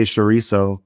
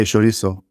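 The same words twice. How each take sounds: First: CHORIZO said the English way; anglicised CHORIZO; English pronunciation. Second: CHORIZO said the Spanish way; Spanish-accented CHORIZO; Spanish pronunciation. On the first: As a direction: say "chorizo" with an English-speaker's sounds. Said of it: "in English, I would say". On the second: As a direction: say "chorizo" as a Spanish speaker would. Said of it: "But in Spanish, I would say". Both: Shown as a demonstration.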